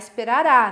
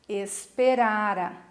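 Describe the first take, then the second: First: The stress falls on the last syllable. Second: The stress falls before the last syllable. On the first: It is the future: it will happen. "senão vai virar esperará, né? É futuro" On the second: It is the past perfect: it had happened before. "Verbo no pretérito mais que perfeito"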